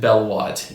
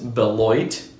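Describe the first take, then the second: First: The second syllable sounds like 'watt'. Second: The second syllable sounds like 'loit'. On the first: The speaker calls it wrong. "I pronounced it Belwatt in my last video" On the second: The speaker calls it right. "It's actually pronounced Beloit"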